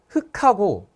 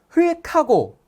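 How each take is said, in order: First: The l sound is dropped before the k. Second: An l sound is kept before the k. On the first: "어떤 사람은 흑하고 라고 읽어요" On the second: "어떤 사람은 흙하고 라고 읽겠죠"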